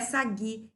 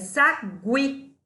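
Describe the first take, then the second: First: The U is silent, giving a plain g sound. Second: The U is sounded, giving a gw sound. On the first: The speaker calls it wrong. "não é sagui" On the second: The speaker calls it right. "é sagui. Eu falo U? Falo"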